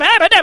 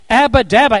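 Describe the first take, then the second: First: It is said quickly, run together with repeats. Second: It is said at a normal, unhurried pace.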